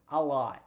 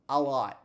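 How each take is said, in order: The two takes are said the same way.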